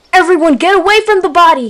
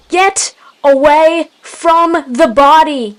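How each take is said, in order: First: High, loud, quick order; shouted. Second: Slow, drawn-out loud order; yelled. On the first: Leader warning the clan off the body, shouting quickly. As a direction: shout an urgent warning to everyone. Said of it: "he shouted". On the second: Leader repeating his warning to the clan, slow forceful yell. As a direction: yell it word by word, higher. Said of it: "he yelled once more". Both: A narrator's reading.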